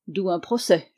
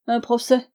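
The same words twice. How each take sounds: First: Said in the usual way. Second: Procès thrown back, higher and louder; mock the word procès as absurd; scoffing echo. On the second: Malone scoffing back at the narrator's guess of procès.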